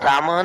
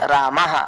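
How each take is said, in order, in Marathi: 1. शेवटचा विसर्ग एक छोटा, तुटका 'h' आहे. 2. शेवटचा विसर्ग 'haa' असा लांबवलेला आहे. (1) "रामह रामह नाही" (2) "असं थोडं लांबवायचं"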